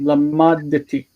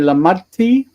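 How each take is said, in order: First: A short vowel separates the d and t. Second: The d and t merge into one sound. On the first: The speaker calls it right. "You have to separate them" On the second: The speaker calls it wrong. "You'll either say lamadti with a T"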